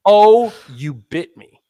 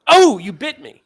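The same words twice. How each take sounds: First: Slow, loud drawn-out mock yelp; slow mock hurt. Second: High, loud startled yelp; a surprised assistant crying out. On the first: Patient replays assistant's yelp, slow and hammed-up. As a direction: stretch it out in mock shock. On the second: Retold or imitated. Assistant yelps at patient who bit her, startled and loud. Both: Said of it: "And the assistant says".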